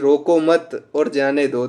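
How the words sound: There is a pause right after the second word. Do not stop him; let him go. "अगर coma अगर एक शब्द बाद लगता है"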